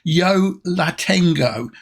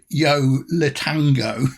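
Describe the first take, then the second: First: The last word is said as Tengo. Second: The last word is said as Tango. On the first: The speaker calls it right. "It's Yo La Tengo" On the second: The speaker calls it wrong. "not as I always call it"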